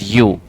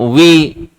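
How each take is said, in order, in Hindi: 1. यह शब्द 'you' जैसा बोला जाता है। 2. यह शब्द 'vee' जैसा बोला जाता है। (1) "लेकिन इसकी प्रोनाउंसिएशन जो होती है ना, दैट इज यू" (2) "कोई इसको एव, ईव, वी, बहुत सारे वर्ड प्रोनाउंस करेंगे"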